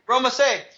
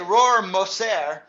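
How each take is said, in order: First: The name is said with local Spanish pronunciation. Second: The name is said with German pronunciation. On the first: This is how local people say the name. The speaker calls it wrong. "They say Rormacer" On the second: This is the original, correct form of the name. The speaker calls it right. "They don't say Rormacer"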